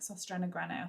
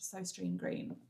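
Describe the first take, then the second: First: The name is said like 'sostrena grena'. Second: The name is said like English 'sostrine green'. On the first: The speaker calls it right. "It's pronounced like Sostrena Grene or something" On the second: The speaker calls it wrong. "I know it's not pronounced Sostrine Green"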